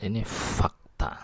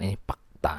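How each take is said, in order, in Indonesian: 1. Kata terakhir dimulai dengan bunyi f. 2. Kata terakhir dimulai dengan bunyi p.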